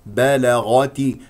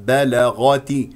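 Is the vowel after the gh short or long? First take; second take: long; long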